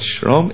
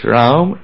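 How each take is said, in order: First: The vowel is a plain o sound. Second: The vowel glides from a to u. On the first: The speaker calls it wrong. "it is not Shrom" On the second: The speaker calls it right. "it's Shraum"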